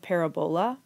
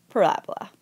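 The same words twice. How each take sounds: First: "parabola" said as it is spelled, para-BOH-la; spelling pronunciation. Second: "parabola" with stress on the second syllable, puh-RAB-uh-la; standard pronunciation. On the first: Teacher showing students how the word is spelled, spelling pronunciation. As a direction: read "parabola" letter by letter as written, PAIR-a-BOWL-a. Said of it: "spelled parabola, but pronounced". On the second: Teacher showing students how the word is pronounced, standard pronunciation. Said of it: "but pronounced". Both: Shown as a demonstration.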